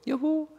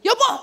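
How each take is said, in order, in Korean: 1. 낮은 음으로 말해요. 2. 높은 음으로 말해요. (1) "여자는 한음 낮춰서 말하면 되고" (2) "옛날에 여자는 여보 그랬던 걸"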